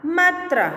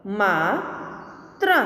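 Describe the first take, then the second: First: Said in the usual way. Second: Slow, each sound drawn out, rising at the end; slow drawn-out reading. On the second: Shown as a demonstration. Teacher slowly sounding out a word for students, drawn out. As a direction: stretch the word slowly for the class. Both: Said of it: "के उदाहरण हम देखें".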